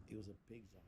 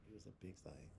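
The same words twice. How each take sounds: First: Said in the usual way. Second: Hushed whisper of the punchline. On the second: Shown as a demonstration. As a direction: drop to a secret whisper.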